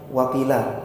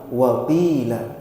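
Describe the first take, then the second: First: The vowel after the q sound is short. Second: The vowel after the q sound is long. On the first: The speaker calls it wrong. "Ada sebagian yang bacanya wakila, salah" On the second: The speaker calls it right. "qafnya panjang"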